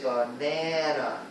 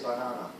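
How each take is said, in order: First: Banana with the middle syllable stressed, baNAna; English stress pattern for banana. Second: Banana with all three syllables even, no stressed syllable; banana without English stress; no word stress. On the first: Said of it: "We stress the middle". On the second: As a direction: say banana flat and level. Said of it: "Some languages really don't do that". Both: Shown as a demonstration.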